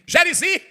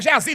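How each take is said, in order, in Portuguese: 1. O nome é dito com um som de r a mais. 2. O nome é dito sem som de r. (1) "Onde é que ele arrumou isso?" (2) "não é Geazi não"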